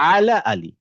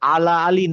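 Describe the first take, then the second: First: The ain throat sound is clearly pronounced. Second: The ain throat sound is missing. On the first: The speaker calls it right. "আইনের উচ্চারণটা ক্লিয়ার করতে হবে" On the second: The speaker calls it wrong. "আলা আলী না"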